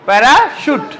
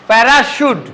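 Both takes have the same delivery.

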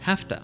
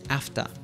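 First: The H sound is kept at the start. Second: The H sound is dropped at the start. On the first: "The common reduction of the phrase have to" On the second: "in Birmingham, they would drop the H sound"

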